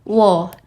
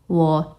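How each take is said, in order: First: The pitch drops sharply and abruptly. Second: The pitch dips down then rises. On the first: "Dia itu lebih lebih lebih nentak nadanya" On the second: "Dia itu lebih turun naik nadanya"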